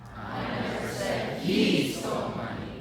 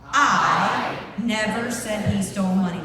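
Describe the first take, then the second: First: The stress is on he. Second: The stress is on I.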